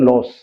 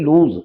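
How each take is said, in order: First: It is said with a short o and s. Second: It is said with a long oo and z. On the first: The speaker calls it wrong. "इसको अक्सर लोग बोल जाते हैं लॉस, नहीं" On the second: The speaker calls it right. "इसका उच्चारण भी है लूज"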